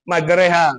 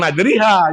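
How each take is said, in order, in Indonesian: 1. Vokal tengahnya berada di tengah-tengah, seperti 'e'. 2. Vokal tengahnya bergeser penuh ke 'i'. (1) "A geser jadi ke I gitu, jadi tengah-tengah" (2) "bukan majriha"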